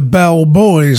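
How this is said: It is said as two separate words. The speaker calls it right. "as are the name of the group"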